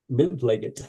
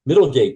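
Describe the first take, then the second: First: The word ends sounding like 'legged'. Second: The word ends sounding like 'gate'. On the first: This imitates the navigation voice's odd pronunciation. The speaker calls it wrong. "it always pronounces it mid-legged" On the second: This is the expected, proper pronunciation. The speaker calls it right. "Middlegate proper"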